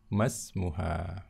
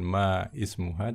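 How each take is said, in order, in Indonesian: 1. Vokal di awal ismuha dilewati dan disambung. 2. Vokal di awal ismuha dilafalkan terpisah. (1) "tapi masmuha" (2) "bukan ma ismuha"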